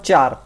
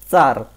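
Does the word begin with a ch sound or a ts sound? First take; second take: ch; ts. First: The word begins with a ch sound. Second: The word begins with a ts sound. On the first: The speaker calls it wrong. "It's not char" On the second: The speaker calls it right. "It is tsar"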